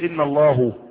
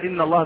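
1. الاسم ينتهي بحركة غير 'a'. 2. الاسم ينتهي بالحركة 'a'. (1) "فما ينفعش" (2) "بدل إن الله"

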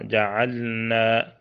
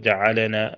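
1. اللام ساكنة بلا قلقلة ولا إدغام. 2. اللام تُخرج مع قلقلة وارتداد صوتي. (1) "تسكن بدون قلقلة ولا إدغام" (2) "وبعضهم قلقل"

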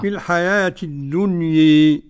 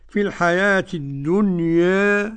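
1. الحركة الأخيرة تميل بقوة نحو الكسرة. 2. الحركة الأخيرة تميل قليلاً نحو الكسرة. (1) "هذه الإمالة" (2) "هذا التقليل"

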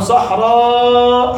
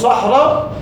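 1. الصوت قبل الهمزة الأخيرة مُمَدود. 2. الصوت قبل الهمزة الأخيرة قصير.

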